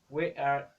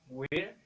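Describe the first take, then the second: First: It is said as two full words. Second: It is said as one contracted syllable. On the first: "las combinaciones" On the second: "se convierten en"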